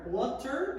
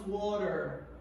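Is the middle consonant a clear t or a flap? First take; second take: clear t; flap. First: The middle t is a clear t. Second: The middle t is a quick flap.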